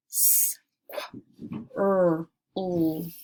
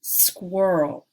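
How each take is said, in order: First: Squirrel broken into separate sounds s, qu, r, l; each sound of "squirrel" isolated. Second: Said in the usual way. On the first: Shown as a demonstration. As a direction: sound out "S, qu, r, l" with gaps. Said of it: "I'll say each sound". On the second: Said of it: "blend the word together".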